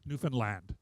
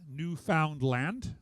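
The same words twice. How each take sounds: First: The syllables run together, stress on the last. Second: The three syllables are said separately and evenly. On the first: The speaker calls it right. "it's all rolled together. ... the emphasis is upon the last syllable" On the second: The speaker calls it wrong. "don't say Newfoundland. It's not three separate"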